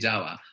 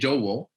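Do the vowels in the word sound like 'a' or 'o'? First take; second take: a; o. First: Both vowels sound like 'a'. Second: Both vowels sound like 'o'. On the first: This is how these local speakers say it. "they say Jawa" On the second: This is not how these local speakers say it. "They don't say Jowo"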